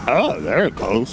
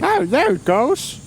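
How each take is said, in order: First: Put-on half-hearted old man voice; lazy mock old geezer; whiny nasal old person. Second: Put-on high, slow creaky old man; whiny nasal old person. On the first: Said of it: "that was even worse". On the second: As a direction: croak it like a whiny old geezer. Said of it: "Is that your old man voice?".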